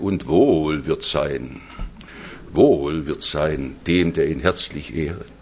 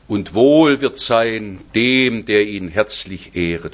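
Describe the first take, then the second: First: The voice trembles with a tremolo. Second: The voice is steady, without a tremolo.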